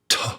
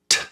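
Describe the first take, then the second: First: The t has a short vowel sound after it. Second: The t is crisp with no vowel after it. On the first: The speaker calls it wrong. "not t. That would be to, ap" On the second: The speaker calls it right. "Just the t"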